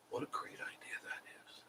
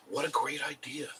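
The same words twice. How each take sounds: First: Repeated under the breath as a whisper; voiceless sarcastic whisper to himself. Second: Said in the usual way. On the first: Real, not acted. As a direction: hush it to a private whisper.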